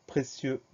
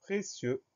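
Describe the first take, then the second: First: Said in the usual way. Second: High-pitched, softer dictation model; word presentation. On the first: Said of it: "à la fin de précieux". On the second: Shown as a demonstration. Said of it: "c'est le mot".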